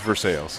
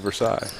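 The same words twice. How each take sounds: First: It is said the local town way. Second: It is said like the French palace name. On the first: It names the local town. "but the town is" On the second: It names the French king's palace. "Louis the fourteenth's castle, definitely"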